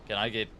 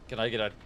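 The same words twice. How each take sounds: The two takes are said the same way.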